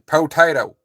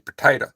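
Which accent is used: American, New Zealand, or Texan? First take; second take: Texan; American. First: It is said in a Texan accent. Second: It is said in an American accent.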